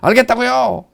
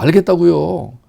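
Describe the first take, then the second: First: It is said in an irritated, grudging tone. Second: It is said in a soft, accepting tone. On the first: The speaker does not truly accept the decision. The speaker calls it wrong. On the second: The speaker fully accepts the decision. The speaker calls it right.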